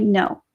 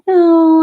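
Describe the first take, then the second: First: Said in the usual way. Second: A sharp, loud, higher refusal; firm loud no. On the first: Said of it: "And I'm like". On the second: Retold or imitated. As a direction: bark the no out loud to shut them down. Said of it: "And people are like".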